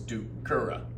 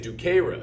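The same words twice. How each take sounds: First: The second-to-last vowel is short. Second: The second-to-last vowel is long. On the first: The verb is third conjugation. The speaker calls it right. "It's third" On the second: The verb is first or second conjugation. The speaker calls it wrong. "if you give that that second to last syllable, that vowel, a length to it"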